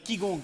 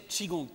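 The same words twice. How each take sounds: First: The first syllable sounds like 'kee'. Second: The first syllable sounds like 'chee'. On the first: The speaker calls it wrong. "ça s'appelle Qigong comme ça" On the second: The speaker calls it right. "c'est Qigong qu'il faut dire"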